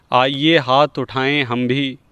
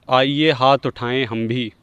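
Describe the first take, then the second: No difference in how they are said.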